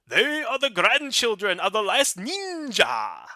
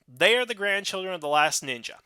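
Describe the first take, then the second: First: It is spoken in a stereotyped Japanese accent. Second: It is spoken in a natural American accent. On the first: The speaker calls it wrong. "He said it in such a stereotypical Japanese way" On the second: The speaker calls it right. "That seems to be a very normal way of saying it"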